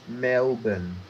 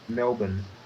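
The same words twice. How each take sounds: First: It is said slowly. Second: It is said at normal speed.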